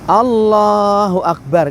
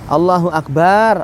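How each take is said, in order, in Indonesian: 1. Vokal setelah huruf b dibaca pendek. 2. Vokal setelah huruf b dibaca panjang. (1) "kan begitu. Ba-nya jangan panjang" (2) "Allah adalah tembikar"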